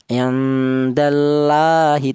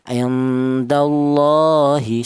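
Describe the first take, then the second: First: The l in Allah sounds thin and light. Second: The l in Allah sounds thick and heavy. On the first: The speaker calls it wrong. "Tidak boleh dibaca tarkik atau tipis" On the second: The speaker calls it right. "dibaca tafkhim atau dibaca tebal"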